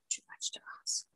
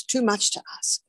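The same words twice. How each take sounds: First: Soft whispered echo of the phrase. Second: Said in the usual way. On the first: Shown as a demonstration. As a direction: breathe it out as a whisper. Repeated phrase, then whispered.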